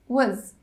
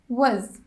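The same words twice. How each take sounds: Both takes have the same delivery.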